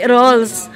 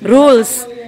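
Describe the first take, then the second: First: The vowel is an 'oh' sound. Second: The vowel is a long 'oo' sound. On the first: The speaker calls it wrong. "hindi rolls" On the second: The speaker calls it right. "Rules, hindi rolls"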